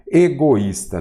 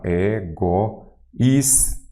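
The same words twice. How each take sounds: First: Said in the usual way. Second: "Egoísta" very slowly, in separate syllables. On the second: Shown as a demonstration. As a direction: break "Egoísta" into e, go, ís, ta. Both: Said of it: "Vamos lá".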